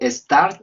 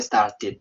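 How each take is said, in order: First: The ending adds no extra syllable. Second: The ending adds an extra syllable. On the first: The speaker calls it wrong. "¿Cuál sería correcto? ... No, la segunda" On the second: The speaker calls it right. "cuando termina en T o en D, sí pronunciamos la E"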